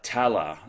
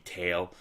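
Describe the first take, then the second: First: It is said with two syllables, ending in a vowel. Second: It is said as one syllable, like English tail. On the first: "as far as I know, it's pronounced" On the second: "the English pronunciation would be just be tail"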